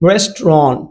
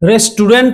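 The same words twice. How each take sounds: First: The last syllable sounds like 'ront'. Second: The last syllable does not sound like 'ront'. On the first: The speaker calls it right. "Correct প্রনাউন্সিয়েশনটা হচ্ছে রেস্টুরেন্ট, রন্ট" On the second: The speaker calls it wrong. "রেস্টুরেন্ট বলি আমরা সাধারণত"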